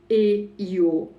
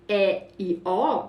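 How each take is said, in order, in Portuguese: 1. As vogais são pronunciadas fechadas. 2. As vogais são pronunciadas abertas. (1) "a gente vai falar E e O. Tá vendo? Vai mudar o timbre" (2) "Ao invés da gente falar"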